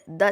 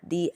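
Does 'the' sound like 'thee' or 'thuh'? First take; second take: thuh; thee. First: The vowel is a short, weak 'uh' sound. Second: The vowel is a long 'ee' sound. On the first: "I said the tiny teacher" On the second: "but the ant? This is because the ant word ant starts with a vowel"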